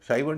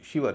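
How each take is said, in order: First: The first vowel is a long 'eye' sound. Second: The first vowel is a short 'i' sound. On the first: The speaker calls it wrong. "शाइवर नहीं है" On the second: The speaker calls it right. "इसका उच्चारण शिवर है"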